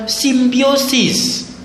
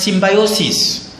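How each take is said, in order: First: "symbiosis" said sim-bee-OH-sis; "symbiosis" with an ee sound after the m-b; first pronunciation. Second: "symbiosis" said sim-by-OH-sis; "symbiosis" with an eye sound after the m-b; alternative pronunciation. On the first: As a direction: say "symbiosis" with a "bee" in the second syllable. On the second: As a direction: say "symbiosis" with "by" as the second syllable. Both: Shown as a demonstration. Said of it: "others may pronounce it as symbiosis".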